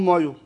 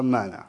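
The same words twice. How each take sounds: First: Slipping back into Mashhadi "مایو" at the door; Mashhadi accent. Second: Said in the usual way. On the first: Retold or imitated. Suitor failing the accent test at the door, Mashhadi accent. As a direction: answer "مایو" in Mashhadi, short falling, instead of "منم". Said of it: "گفتن که گفت". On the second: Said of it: "گفت کیه، گفت مثلاً منم".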